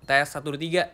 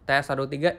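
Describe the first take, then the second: First: The voice has a brighter, treble-heavy tone balance. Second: The voice has a darker, bass-heavy tone balance. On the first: "ini equalizer di bright" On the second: "equalizer dark"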